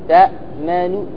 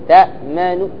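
No difference in how they are said.

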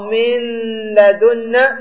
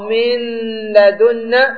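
First: The n is pronounced separately before the l. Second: The n is pronounced separately before the l.

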